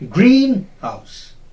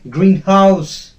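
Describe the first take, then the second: First: The stress is on the first syllable. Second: The stress is on the second syllable. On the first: The speaker calls it right. "the first part of the compound word will be stressed" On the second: The speaker calls it wrong. "It will not be pronounced as greenhouse. That is wrong"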